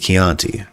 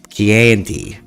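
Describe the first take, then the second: First: It is said closer to the Italian pronunciation. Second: It is said with an American-style mispronunciation. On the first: The speaker calls it right. "but it's it's Chianti. He said it wrong" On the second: The speaker calls it wrong. "Hannibal Lecter mis- mispronounced it"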